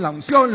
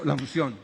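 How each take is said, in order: First: "unción" said higher and louder with a rise; emphatic repeat. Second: Said in the usual way. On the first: Shown as a demonstration. Preacher hammering the word "unción" at the congregation, louder and higher. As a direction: push "unción" up and out loud.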